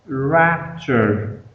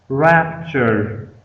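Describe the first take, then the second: Both takes have the same delivery.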